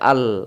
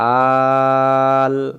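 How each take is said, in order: First: The first vowel is short and runs into the l. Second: The first vowel is stretched long before the l. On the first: The speaker calls it wrong. "এটা হলে ভুল হবে" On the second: The speaker calls it right. "আ আগে টান"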